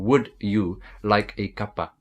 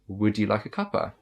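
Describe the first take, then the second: First: It is broken up with pauses between words. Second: It flows smoothly without pauses between words. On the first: The speaker calls it wrong. "it is kind of broken down. You kind of pausing" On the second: The speaker calls it right. "Just relax and perfect it"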